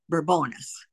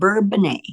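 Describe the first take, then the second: First: The name is pronounced with English sounds. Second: The name is pronounced with French sounds.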